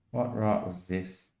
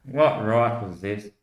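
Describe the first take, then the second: First: Same line again, much softer and slow; a soft, muttered echo; hushed repeat. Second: Said in the usual way. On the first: Retold or imitated. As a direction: let it drop to a near-murmur.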